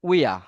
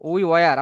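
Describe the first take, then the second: First: The words are run together into one short form. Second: Both words are said fully and separately.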